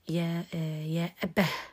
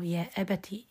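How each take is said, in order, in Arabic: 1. تنتهي الكلمة بصوت الهاء. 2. تنتهي الكلمة بصوت التاء.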